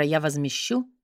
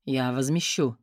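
First: Low quiet echo of his words; mocking his low voice. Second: Low, quiet curt man's promise. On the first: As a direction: mimic the stranger's curt promise. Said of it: "мистера". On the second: Acted. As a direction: tall man answers low and brief. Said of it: "Слышу сверху низкий голос".

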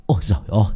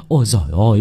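First: Said in the usual way. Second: Called out. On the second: Acted. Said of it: "miệng hô to tất tưởi".

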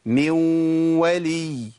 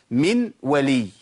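First: من ولي with the n melted into a long nasal w; slow nasal glide joining من ولي; merge with ghunnah. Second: من ولي word by word with a clear short n; deliberate, unblended من ولي; unmerged example. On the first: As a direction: hold a humming w between من and ولي. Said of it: "واو بس فيها غنة". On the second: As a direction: separate من from ولي, sounding the n. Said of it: "أما أقول مثلًا". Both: Shown as a demonstration.

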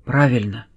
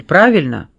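First: Subdued self-confirmation; answering himself. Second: Firm check-question; questioning prompt. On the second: Detective asks the silent suspect to confirm, pressing question. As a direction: put it to him for confirmation. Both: A narrator's reading. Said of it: "ответил Кис сам себе".

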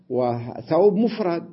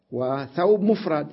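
First: مفرد drawn out slowly with a falling close; slow emphasis on مفرد. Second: Said in the usual way. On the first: Shown as a demonstration. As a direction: lean on مفرد, slow and a bit louder. Teacher repeats the point with weight.

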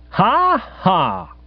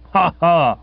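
First: High, deliberate "ha, ha"; spoken laugh, pitched well up; cheery mock guffaw. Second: Lightly voiced aunt's "ha, ha"; spoken laugh, a bit higher than usual; answering mock guffaw. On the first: Guest laughing off the accusation, forced cheery guffaw. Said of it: "A cheery guffaw seemed in order". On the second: Aunt backing up her nephew with another guffaw, mock cheery. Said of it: "Aunt Dahlia came across with another". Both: A narrator's reading.

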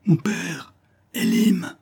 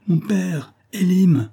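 First: Very high, straining call; last desperate cry. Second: High-pitched desperate call; crying out. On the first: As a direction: gather all strength for one final call. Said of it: "toutes ses forces pour crier une dernière fois". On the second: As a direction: call out for them while fleeing. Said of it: "elle criait". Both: A narrator's reading.

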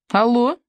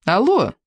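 First: A rising, asking «Алло?»; «Алло?» lifted high at the end like a question; questioning hello. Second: «Алло» said again with a falling, settled end; a firmer, falling «Алло»; repeated hello. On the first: (вопросительное «Алло?» с подъёмом) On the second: (повторное «Алло» с понижением) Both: Acted. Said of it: "повторила она".

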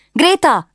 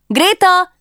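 First: High excited call; first call to the maid. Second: Very high, louder urgent call; insistent second call. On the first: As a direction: call her over. Calling her lady-in-waiting. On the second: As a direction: shout her name the second time. Calling again, louder. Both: Acted.

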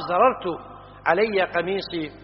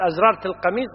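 First: زررت said without hamza, zarartu; زررت as the correct form, no leading alif. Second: أزررت said with a leading hamza, azrart; أزررت with the extra alif, as the common mistake; wrong form. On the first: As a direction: say زررت plainly as zarartu, slowly and carefully. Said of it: "الصواب". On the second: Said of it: "غلط". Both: Shown as a demonstration.

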